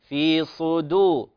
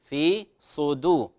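Both takes have the same delivery.

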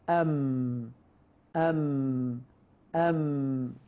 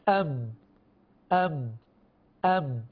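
First: The nasal hum flows freely through the nose. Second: The nasal hum is choked off and blocked.

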